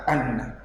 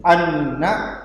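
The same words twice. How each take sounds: First: Anna said softer and lower; softer repeat of anna, nn held; doubled n, softer. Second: Anna, lingering on the nn; doubled n. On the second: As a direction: lean into the nn of Anna. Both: Shown as a demonstration. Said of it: "sama dengan cara membaca ini".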